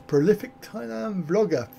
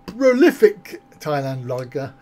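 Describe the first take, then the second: First: Said in the usual way. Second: Slow, chuckling through the words; amused repeat. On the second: Real, not acted. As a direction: read the phrase out slowly, laughing at it. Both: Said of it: "Yes, prolific".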